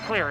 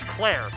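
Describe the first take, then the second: First: The vowel sounds like the one in 'ear'. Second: The vowel sounds like the one in 'air'. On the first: The speaker calls it wrong. "It's not clear" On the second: The speaker calls it right. "It's Claire"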